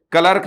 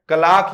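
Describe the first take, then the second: First: क्लर्क said as written, kler-k; क्लर्क with the Hindi-style short vowel; spelling pronunciation. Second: क्लार्क with a long open aa, klaark; क्लार्क said the British way, long aa; British pronunciation. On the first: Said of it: "क्लर्क जो शब्द है इसका pronunciation जरूर याद रखना है". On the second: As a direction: stretch the vowel in क्लार्क like clark. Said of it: "क्लार्क याद रखना है जी". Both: Shown as a demonstration.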